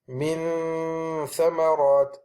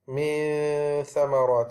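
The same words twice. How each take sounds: First: The n is made with the tongue pressed firmly. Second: The n is made without the tongue touching. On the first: "if I placed it and I pressed it onto the tip of the incisors, it will sound like this" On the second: "if I went all the way away and I didn't touch it"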